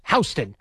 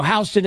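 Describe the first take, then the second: First: Houston said as HOW-stin; Houston with a "how" first syllable; local street pronunciation. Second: Houston said as HEW-stin, like the Texas city; Houston with a "hew" first syllable; spelling pronunciation. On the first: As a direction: say Houston like "house" plus "tin". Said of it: "but it's pronounced Houston". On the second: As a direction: say Houston the way it is spelt, HYOO-stin. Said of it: "Houston is spelt Houston". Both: Shown as a demonstration.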